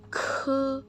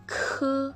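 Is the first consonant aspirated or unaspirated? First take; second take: aspirated; aspirated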